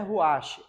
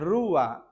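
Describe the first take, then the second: First: It ends with an extra 'sheh' syllable. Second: It has a trilled R and no extra syllable. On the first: The speaker calls it wrong. "Não é ruache" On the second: The speaker calls it right. "é rua, tá? A pronúncia é correta"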